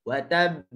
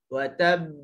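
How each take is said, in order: No difference in how they are said.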